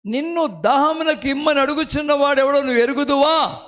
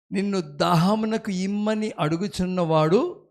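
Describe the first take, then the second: First: Verse cried out higher and louder; proclaimed loudly. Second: Said in the usual way. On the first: Shown as a demonstration. Preacher repeating the verse to the congregation, proclaimed loudly. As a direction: ring the verse out to the hall.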